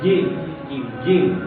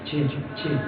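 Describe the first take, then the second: First: The j sound is clean, without hissing. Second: The j sound is hissing. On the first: The speaker calls it right. "tapi harus bersih" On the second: The speaker calls it wrong. "nggak boleh mendesis, nggak boleh"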